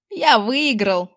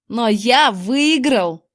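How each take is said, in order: First: Slow, proud boast; triumphant announcement. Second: Slow, drawn-out gloating cry; jubilant yell. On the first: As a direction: announce your win, drawn out. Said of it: "объявил он". (торжествующе объявляя) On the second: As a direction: crow about your win. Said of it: "ликующе завопил он". (ликующий вопль) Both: A narrator's reading.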